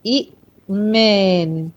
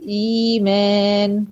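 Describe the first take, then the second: First: إئمان with short i cut by a glottal stop; two hamzas in إئمان. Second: إيمان with a long smooth ii, no stop inside; easy madd in إيمان. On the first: Teacher showing the original form, إئمان with a hard caught second hamza. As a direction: break إئمان after the first i, then slowly finish. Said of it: "طب إيمان أصلها إئمان". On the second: Teacher showing how easy it becomes, إيمان with a held opening ii. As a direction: stretch the first vowel of إيمان, slow and even. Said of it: "شايفة السهولة كده في النطق؟". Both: Shown as a demonstration.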